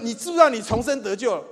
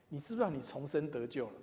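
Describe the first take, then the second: First: 你知不知道你重生得救了 fired out loud and high, falling at the end; pushy church brother. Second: Said in the usual way. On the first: Retold or imitated. Church brother confronting everyone he meets, loud and high. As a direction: play the eager brother who confronts everyone. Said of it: "他碰到人就说". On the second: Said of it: "我最怕人家问我说什么".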